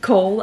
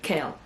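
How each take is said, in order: First: The name is said with an 'oh' vowel. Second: The name is said with an 'ay' vowel. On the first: The speaker calls it wrong. "I've been reading it as Cole" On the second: The speaker calls it right. "other people pronounce it Cale"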